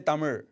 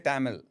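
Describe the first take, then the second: First: The last sound is an r-like zh sound. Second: The last sound is a plain l sound. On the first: This is how few people say it. "Not many people say Tamil" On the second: This is how most people say it. "They say Tamil"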